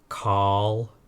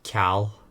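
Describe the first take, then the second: First: The first consonant is made further back. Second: The first consonant is made further forward.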